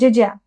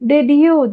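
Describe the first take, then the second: First: The words blend into one reduced word. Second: Both words are said in full. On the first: The speaker calls it right. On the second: The speaker calls it wrong.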